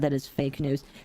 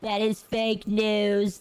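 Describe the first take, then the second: First: It is said in the speaker's normal voice. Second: It is said in an impersonated president's voice.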